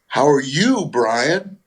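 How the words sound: The line is delivered with comic timing and emphasis.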